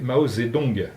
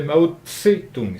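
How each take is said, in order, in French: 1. La syllabe du milieu commence par un son 'z' plus doux. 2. La syllabe du milieu commence par un son 'ts' net. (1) "c'est devenu Z parce que ça s'est usé" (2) "avec une palatale explosive après Tse"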